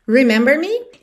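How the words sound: It is said with question intonation.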